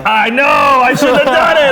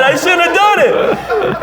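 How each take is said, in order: First: High, loud, slow whining protest; whiny shout. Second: High, very slow whine breaking into laughter; laughing whine. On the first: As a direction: wail the excuse back at her. Answering wife's scolding. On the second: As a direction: stretch it out while cracking up. Repeating through laughter. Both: Retold or imitated.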